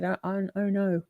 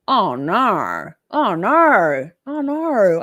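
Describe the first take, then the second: First: "Oh, oh, oh, no" said softly, broken into quick beats; her own oh no. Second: "Oh, no" said three times, loud and rising in pitch. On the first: Streamer showing how she really says her catchphrase. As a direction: softly stutter "Oh, oh, oh, no". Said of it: "I say". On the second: Streamer mimicking how a viewer wrote her catchphrase. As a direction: call out "Oh, no" three times, louder each time. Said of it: "I don't say it like that". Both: Shown as a demonstration.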